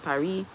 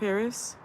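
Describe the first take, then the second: First: The final S sound is silent. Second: The final S sound is pronounced.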